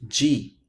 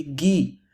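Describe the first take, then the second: First: "g" said jee; soft g in "g", as in jeep; soft g sound. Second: "gi" said ghee; hard g in "gi", as in geese; hard g sound. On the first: Teacher giving third-from-last plural, "g" said jee. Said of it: "Third from the last". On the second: Teacher giving penultimate-stress plural, "gi" said ghee. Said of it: "Penultimate syllable for the stress". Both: Shown as a demonstration.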